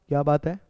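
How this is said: It sounds like a genuine question.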